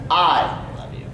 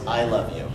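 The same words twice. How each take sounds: First: The word I is punched with emphasis. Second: No word is given any special emphasis. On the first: "just punch the word I" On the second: "Just in your normal voice"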